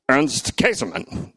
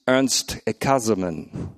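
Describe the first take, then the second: First: The name is said with an Australian accent. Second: The name is said with a German accent. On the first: "And then I went Australian, and it was more like" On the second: "And then I put it on Deutsch or Dutch, and I also heard Moltmann say"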